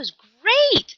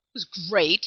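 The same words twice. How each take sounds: First: The voice sounds excited and lively. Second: The voice sounds flat and unenthusiastic.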